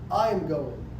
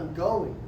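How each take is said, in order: First: The stress falls on the word I. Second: The stress falls on the word going. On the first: It tells who is the one going. "When somebody asks, who's going?" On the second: It confirms that the speaker is leaving. "you getting out of here? Yeah"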